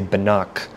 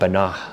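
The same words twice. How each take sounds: First: The final consonant is a hard K stop. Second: The final consonant is a raspy throat fricative. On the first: The speaker calls it wrong. "we're going to use the sound K" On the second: The speaker calls it right. "I should really be saying Banach"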